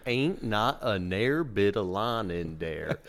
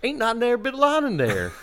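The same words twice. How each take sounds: First: Very slow imitation Southern drawl; slowed-down Southern dialect. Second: High, loud imitation Southern twang; thick Southern dialect. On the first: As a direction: spell it out slowly in a Southern accent, at usual pitch. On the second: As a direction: repeat it louder in a run-together Southern accent.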